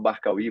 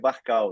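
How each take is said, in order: First: The stress falls on the final syllable. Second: The stress falls before the final syllable. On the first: The speaker calls it wrong. "desde pequeno falam Barcauí" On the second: The speaker calls it right. "O nome correto é Barcal"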